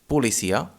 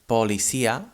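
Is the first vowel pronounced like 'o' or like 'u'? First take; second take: u; o. First: The first vowel sounds like a 'u'. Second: The first vowel sounds like a full 'o'. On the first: The speaker calls it right. "but we say policía" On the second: The speaker calls it wrong. "We do not say policía"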